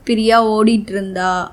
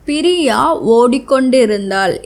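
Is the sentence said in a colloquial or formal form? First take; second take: colloquial; formal. First: It is said in the reduced colloquial form. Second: It is said in the full formal form.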